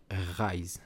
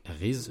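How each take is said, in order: First: "Rise" with an English long i, like "eyes"; prononciation à l'anglaise. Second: "Riz" with an ee vowel and sounded z; prononciation à la française. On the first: (« Rise » prononcé à l'anglaise, « raïz ») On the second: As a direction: say "Riz" as "reez". (« Riz » prononcé à la française, « rize ») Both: Shown as a demonstration. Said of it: "je vais l'appeler".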